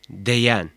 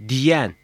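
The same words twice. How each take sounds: First: "deyen" with e before the y; unnarrowed E vowel. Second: "Diyen" with i before the y; narrowed vowel. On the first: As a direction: keep the e open in "deyen". ("deyen", açık e ile) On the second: ("Diyen", daralmış i ile) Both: Shown as a demonstration. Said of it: "Y harfinin daraltıcı etkisi".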